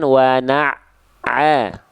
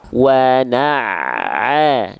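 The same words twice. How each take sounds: First: The stressed ain sound is cut off midway. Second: The stressed ain sound flows without a break. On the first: The speaker calls it wrong. "jangan putus bunyinya" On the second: The speaker calls it right. "tekan tapi jangan membuat ainnya putus bunyinya"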